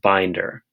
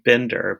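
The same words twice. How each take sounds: First: The first vowel is long, as in bind. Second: The first vowel is short, as in bin. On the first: The speaker calls it right. "but it's actually pronounced binder" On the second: The speaker calls it wrong. "So it should be binder"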